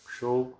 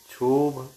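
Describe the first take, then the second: First: क्षोभ said as kshobh, with ksh; क्षोभ with a ksh cluster; correct ksh. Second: क्षोभ said as chhobh, with chh; क्षोभ with a chh sound instead of ksh; wrong chha sound. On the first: Teacher giving the correct ksh sound. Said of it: "शुद्ध उच्चारण". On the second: Teacher showing the mistake, chh. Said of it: "क्ष के स्थान पर छ". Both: Shown as a demonstration.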